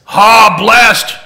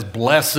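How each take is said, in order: First: "blessed" shouted as one syllable, higher-pitched; loud exclamation. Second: "Blessed" said as "bless-ed", low; two-syllable blessed. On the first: Real, not acted. Teacher echoing the big people's answer, exclaiming "blessed" loudly. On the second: Shown as a demonstration. Teacher showing the fancy little mark, "Blessed" as "BLESS-ed". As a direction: sound the ending of "Blessed" as its own syllable. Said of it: "puts a fancy little mark here and he says".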